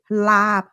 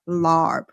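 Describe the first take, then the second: First: The vowel is short with no r sound. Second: The vowel is followed by an r sound. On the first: The speaker calls it right. "Pronounce it lab" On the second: The speaker calls it wrong. "not larb"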